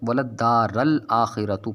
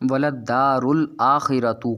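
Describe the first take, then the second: First: وللدار الآخرة drawn out, first word misread as "-ral"; imitated vowel mistake, a ending. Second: وللدار الآخرة drawn out, first word ending "-rul"; correct vowel, u ending. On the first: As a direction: say وللدار slowly with an a on the r, "daa-ral". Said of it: "حضرت ... پڑھ رہے ہیں". (وللدار کو ٹھہر کر زبر کے ساتھ "دارَ" پڑھیں) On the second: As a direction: say وللدار slowly with a u on the r, "daa-rul". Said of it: "کو حضرت ... پڑھ رہے ہیں". (وللدار کو ٹھہر کر پیش کے ساتھ "دارُ" پڑھیں) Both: Shown as a demonstration.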